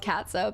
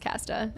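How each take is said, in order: First: The name is pronounced as 'Katza'. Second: The name is pronounced as 'Casta'. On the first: This is the name as the character is actually called. The speaker calls it right. "It was actually a character called Katza" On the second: This is how the speaker misread the name as a child. The speaker calls it wrong. "but I read it as Casta"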